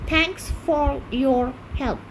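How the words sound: It uses an Indian accent, pronouncing the r sounds. "আমরা আরটা বলছি"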